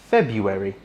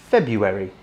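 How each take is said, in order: Both takes have the same delivery.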